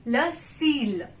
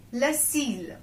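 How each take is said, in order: Both takes have the same delivery.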